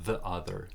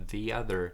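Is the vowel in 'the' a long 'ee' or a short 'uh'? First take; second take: short uh; long ee. First: The word 'the' has a short uh vowel. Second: The word 'the' has a long ee vowel. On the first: The speaker calls it wrong. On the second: The speaker calls it right.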